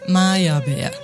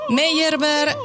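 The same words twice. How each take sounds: First: The name is said with a German pronunciation. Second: The name is said with a French-like pronunciation.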